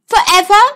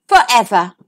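First: "Forever?" higher and louder, rising hopefully; hopeful frog. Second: Gentle promise. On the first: Frog asks the princess whether they will be friends "Forever?", rising. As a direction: ask "Forever?" as an eager question. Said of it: "said the frog". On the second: Princess answers the frog "forever.", low falling promise. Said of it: "said the princess". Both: A narrator's reading.

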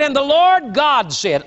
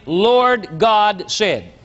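First: Said in the usual way. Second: "Lord God said" drawn out very slowly, each word weighted; underlined emphasis. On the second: Shown as a demonstration. Preacher marking a verse for his congregation, "Lord God said" slow and heavy.

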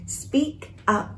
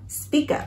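First: "Speak up" with a gap between words; word-by-word "Speak up", high and soft on "Speak"; separate words. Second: "speak up" joined as "spee-kup"; one-word "speak up", high and soft; linked words. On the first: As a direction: pause after "Speak", then "up". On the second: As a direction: carry the k of "speak" onto "up". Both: Shown as a demonstration. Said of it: "Đọc nối ha".

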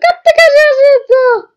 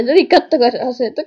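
First: Much higher, loud excited yell; shouted excitedly. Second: Said in the usual way. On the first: Real, not acted. Gamer shouting to viewers about Granny's pose, loud excited yell. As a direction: blast kattokaa out like a cheer. Repeats line then shouts it.

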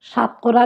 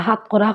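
First: Said in the usual way. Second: হাতকরা with h for the opening s; Sylheti pronunciation. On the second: Shown as a demonstration. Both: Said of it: "আমরা হাতকরা হই".

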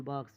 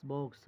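First: "বাক্স" with an open "aa", "baksh"; altered Bengali pronunciation. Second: "বক্স" with a rounded "o", as "box"; English-like pronunciation. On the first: Teacher showing a borrowed word's altered form, Bengali pronunciation "baksh". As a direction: say "বাক্স" Bengali-style, long "aa" vowel. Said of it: "পরিবর্তিত উচ্চারণে". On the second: Teacher giving the source word, English-like pronunciation "box". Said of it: "ইংরেজি উচ্চারণে". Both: Shown as a demonstration.

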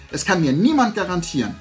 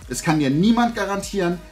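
The two takes are said the same way.

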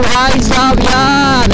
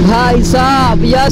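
First: Slow drawn-out भाई साहब यार ending on a falling यार; catchphrase, falling. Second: Slow drawn-out भाई साहब यार ending on a rising यार; catchphrase, rising. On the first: Vlogger doing his famous line for old subscribers, slow and falling. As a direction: savour each word, let यार drop. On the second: Vlogger repeating his famous line, slow with a rising finish. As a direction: stretch it and lift the last यार. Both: Shown as a demonstration. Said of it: "मेरा ये dialogue ना भाई बहुत ज़्यादा famous हुआ था".

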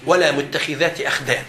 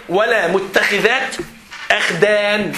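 First: Said in the usual way. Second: ولا متخذات أخدان drawn out slowly, ولا rising; teacher slowly quotes the verse to the class; slow recitation. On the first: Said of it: "قال حسمها في القرآن". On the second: Shown as a demonstration. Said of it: "ربنا قال في القرآن إيه؟".

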